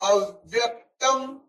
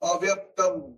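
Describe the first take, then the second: First: The syllables 'a' and 'vya' are stressed. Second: The syllables are said without any stress. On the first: The speaker calls it right. "अव्यक्तम अव्यक्तम आघात से" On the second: The speaker calls it wrong. "अगर आघात नहीं दिया तो उसका उच्चार कैसा होता है?"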